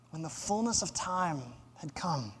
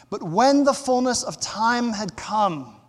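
First: Much softer, lower verse reading; quiet, weighty scripture echo; hushed repetition. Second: Full-voiced, declarative verse reading; emphatic scripture reading. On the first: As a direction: drop right down and let it sink in. Verse repeated softly for weight. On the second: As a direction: read the verse out firmly. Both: Real, not acted.

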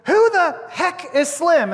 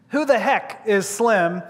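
First: High, slow demand from a coach; mock indignation. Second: Slow, measured question; deliberate repeat. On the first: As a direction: stretch out an indignant question in a high voice. Coach demands an answer, acted out. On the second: Retold or imitated. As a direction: quote it slowly and let it hang. Question repeated for the audience to ponder.

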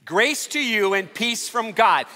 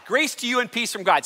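First: Slow, deliberate "Grace to you and peace from God"; slow unison recital. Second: Said in the usual way. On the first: Shown as a demonstration. Pastor leading congregation to say greeting together, slow and deliberate. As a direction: lead the room word by word, slowly. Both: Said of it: "Say it with me".

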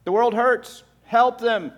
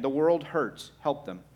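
First: Higher and louder, pressing the plea home; forceful repeat. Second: Said in the usual way. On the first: Shown as a demonstration. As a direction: hammer the message the second time, higher and louder. Same message repeated with force.

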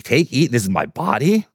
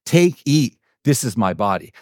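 First: Puzzled echo. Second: Said in the usual way. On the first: Retold or imitated. Disciples echoing Jesus's unexpected words, acted puzzlement. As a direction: repeat it as a baffled question. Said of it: "what does he mean". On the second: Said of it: "He picks it up and he says".

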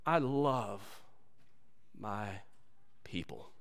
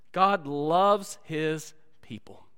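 First: Slow, soft and drawn out, dropping very low; tender. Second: Tender restatement. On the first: Acted. Preacher voicing God tenderly to his people. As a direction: lay each word down gently as God's love. God's tender declaration, slowed. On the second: Shown as a demonstration.

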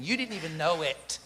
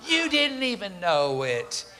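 First: Said in the usual way. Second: "You didn't even know it" drawn out slowly; slow emphatic repeat. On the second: Real, not acted. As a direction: stretch each word for weight.

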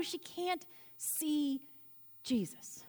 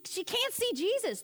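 First: Slow and soft, fading to a whispered "Jesus"; preacher hushing the room before the name. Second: Said in the usual way. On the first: Shown as a demonstration. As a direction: let "she can't see" trail off, then breathe "Jesus".

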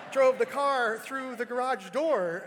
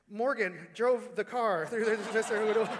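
First: Slow, loud, laughing through the words; can't keep a straight face while saying it. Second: Said in the usual way. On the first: Real, not acted. Retelling, breaks into laughter.

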